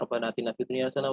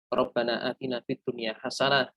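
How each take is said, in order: First: The prayer is recited quickly and hurriedly. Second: The prayer is recited slowly and deliberately. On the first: The prayer is rushed without reflection. The speaker calls it wrong. "jangan buru-buru ... Jangan kayak gitu" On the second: The prayer is reflected on while said. The speaker calls it right. "Pelan-pelan direnungi"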